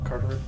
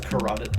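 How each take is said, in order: First: The word is said as car-ter-oid. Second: The word is said as ca-ROT-id. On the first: The speaker calls it wrong. "not the carteroid" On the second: The speaker calls it right. "It's the carotid"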